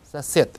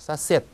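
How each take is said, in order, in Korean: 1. 이 단어는 무성음 t 소리로 끝납니다. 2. 이 단어는 무성음 t 소리로 끝납니다.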